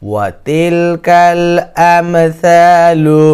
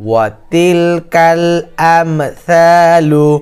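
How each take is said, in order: The two takes are said the same way.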